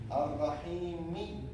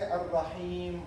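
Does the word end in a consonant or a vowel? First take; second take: vowel; consonant. First: The word ends with a short i vowel. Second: The word ends on the final m consonant. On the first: The reciter continues without stopping. "it has what kasra. So how we say it?" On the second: The reciter stops after the word. "Why we say Ar-Rahim only? ... Because we stop"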